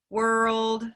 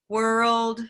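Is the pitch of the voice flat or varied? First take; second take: flat; flat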